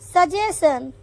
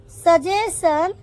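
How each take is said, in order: First: Said in the usual way. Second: Slowed repeat. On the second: Shown as a demonstration. Teacher modelling suggestion for the class, slow and rising. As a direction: say suggestion slowly with a rising end.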